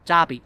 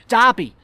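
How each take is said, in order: First: Said in the usual way. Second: DERBY higher and louder, falling; emphatic repeat. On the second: Acted. Guest repeating team to puzzled child, louder. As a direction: repeat Derby loudly, punched high.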